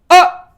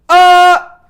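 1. 크고 아주 짧은 외침이에요. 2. 크고 길게 이어지는 외침이에요. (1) "스타카토, 그러니까 짧은 순간에 딱 한 번 소리를 질러볼게요" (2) "진짜 멀리 있는 사람한테 들리게끔 소리를 질러보세요"

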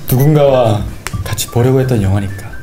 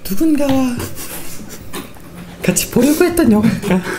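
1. 목소리가 힘겹고 약하고 낮게 들립니다. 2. 목소리가 더 높아지고 더 또렷하게 들립니다. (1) "목소리 너무 아픈데?" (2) "좀 높일게요!"

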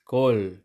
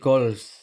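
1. Nagtatapos ang salita sa tunog na l. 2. Nagtatapos ang salita sa tunog na ls. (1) "Yung pangalawang consonant ay magiging silent" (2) "Hindi kols"

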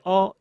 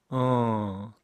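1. 모음이 꽉 차고 또렷하며 단단합니다. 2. 모음이 약하고 느슨하며 콧소리가 납니다. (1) "어머니 할 때 어 이거 아니고요" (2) "콧소리 섞어가지고 힘 빠진 목소리 어입니다"

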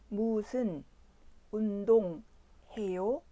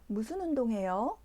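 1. 이 문장은 천천히 말해요. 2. 이 문장은 보통 속도로 말해요. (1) "천천히 2번 들려드립니다" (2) "자막 없이 표준 속도로 2번 들려드립니다"

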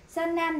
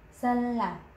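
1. Âm tiết thứ hai bắt đầu bằng âm n. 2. Âm tiết thứ hai bắt đầu bằng âm l. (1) "mình nói san nam, san nam nè, nên mà người ta không hiểu" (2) "hai chữ r này gặp nhau đọc như chữ l cao của mình"

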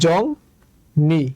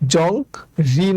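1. দ্বিতীয় সিলেবলটি n ধ্বনি দিয়ে শুরু হয়। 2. দ্বিতীয় সিলেবলটি r ধ্বনি দিয়ে শুরু হয়। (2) "জং রি না"

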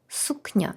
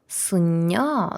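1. Перед n іде звук 'k'. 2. Перед n іде звук 'n'. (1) "Написано сукня" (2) "то ми скажемо суння"

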